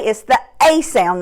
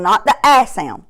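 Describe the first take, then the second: First: A said as ay, like its name; long ay sound. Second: A said as short a, as in glad; short a sound. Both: Shown as a demonstration.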